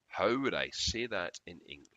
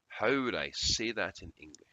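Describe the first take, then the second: The two takes are said the same way.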